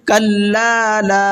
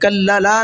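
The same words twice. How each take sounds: First: Both lam sounds are drawn out long. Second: The lam sounds are kept short, not drawn out. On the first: The speaker calls it right. "दोनों लाम खींचेंगे" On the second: The speaker calls it wrong. "कल्ला ला नहीं पढ़ना है इसको"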